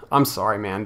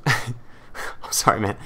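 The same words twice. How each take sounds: First: Plain sincere sympathy; mean the apology this time; straight-faced sympathy for the embarrassed fan; sincere sorry. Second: Whispered giggle through sorry; can't stop chuckling while apologizing; apologizing mid-giggle to the fan; laughing apology. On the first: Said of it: "I feel so bad for your situation". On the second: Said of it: "I'm not laughing at you". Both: Real, not acted.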